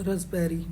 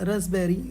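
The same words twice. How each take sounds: No difference in how they are said.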